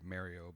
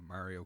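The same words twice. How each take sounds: First: It is said with a Canadian pronunciation. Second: It is said with a non-Canadian pronunciation. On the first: "I say Mario because I'm Canadian" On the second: "I'm saying it right this way"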